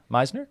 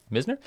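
First: Misner? said MY-zner, long i as in my, rising; Misner? with the first syllable like my, asking; name said as MY-zner. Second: Misner? said MIZ-ner, short i as in miss, rising; Misner? with a short i, checking; name said as MIZ-ner. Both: Shown as a demonstration. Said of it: "So I wanna thank Shannon Misner".

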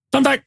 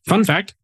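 First: High-pitched playful "fun fact"; playful catchphrase. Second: Said in the usual way. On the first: Pretend. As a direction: toss out "fun fact" far higher, like a silly jingle. Repeats it as running gag.

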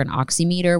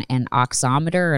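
First: "oximeter" said ox-ee-MEE-ter; long "ee" sounds in "oximeter", as in oxy-meter; alternative pronunciation. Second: "oximeter" said ox-OM-uh-ter; alternative pronunciation. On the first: Rephrases the word with another pronunciation. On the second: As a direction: stress the second syllable of "oximeter", short "om". Tries two pronunciations of the word. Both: Real, not acted.

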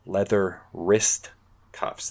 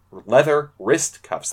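First: Leather wrist cuffs drawn out slowly; slow careful repeat. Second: Leather wrist cuffs said slowly, carefully; stumbling over words. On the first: Shown as a demonstration. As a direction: Leather wrist, spaced out, cuffs dropped soft. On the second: Real, not acted. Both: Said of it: "That's hard to say".

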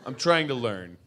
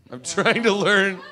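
First: Said in the usual way. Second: High put-on voice; hammed-up insistence, voice jumping high; comic plea. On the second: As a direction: repeat it as a pitched-up mock protest.

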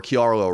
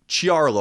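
First: Chiarlo begun with a hard "k"; alternative name pronunciation. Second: Chiarlo begun with a "ch" sound; alternative name pronunciation. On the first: Host offering another surname reading, Chiarlo with a "k". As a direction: say Chiarlo as "kee-AR-lo". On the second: Host trying the writer's surname, Chiarlo with a "ch". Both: Shown as a demonstration.

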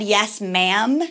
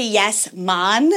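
First: "ma'am" said with its usual American flat a; "ma'am" as in standard English, not "mon"; plain "ma'am". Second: "mon" with a Jamaican-style open vowel; Irish accent sliding into Jamaican on "mon"; Jamaican slip. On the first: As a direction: say "ma'am" with the vowel of "ham". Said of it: "with an Irish accent, it can easily go to". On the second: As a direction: turn "ma'am" into a Jamaican "mon". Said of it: "goes into, like, a Jamaican situation". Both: Shown as a demonstration.

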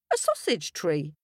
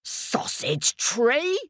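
First: Said in the usual way. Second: Slow, high-rising incredulous question; hammed-up astonished king, ending high; bellowing king. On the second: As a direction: echo it in drawn-out royal disbelief. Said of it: "bellowed the king".

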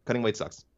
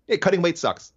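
First: Softer repeat, half to himself; quiet echo. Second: Higher and punchier, leaning into sucks; emphatic complaint. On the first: Host repeating his complaint to himself, softer. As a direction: let it fall away as an afterthought. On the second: Host complaining to co-host about weight cuts, emphatic. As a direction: say it like a fed-up fighter venting. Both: Real, not acted.

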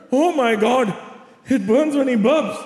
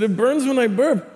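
First: Put-on high mother voice parroting her child; mock the complaint as an exasperated mom; imitated mocking mom. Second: Put-on high, insistent kid voice; imitated child's complaint. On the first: Mother mocks son's burning burp, high exasperated imitation. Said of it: "My mom goes". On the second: Son repeats complaint to mom, high mock insistence. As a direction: repeat it as an upset little boy. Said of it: "I said".

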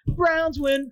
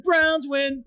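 First: High cheering shout of Browns; excited cheer. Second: Excited cheer. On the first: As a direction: celebrate the win. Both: Pretend. Repeated cheer.

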